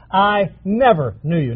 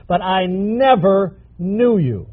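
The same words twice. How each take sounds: First: "never" leaned on, falling at the end; stress on never. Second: "knew" drawn out slowly and stressed; slow down and land on "knew" in "I never knew you". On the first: Preacher quoting Jesus to the congregation, stress on "never". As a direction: push the word "never" in "I never knew you". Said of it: "Not that I did know you". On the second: Preacher correcting the meaning for the congregation, stress on "knew". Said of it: "Not that I did know you and you messed up". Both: Shown as a demonstration.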